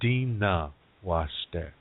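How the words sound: It is said in Nakota, with D and N.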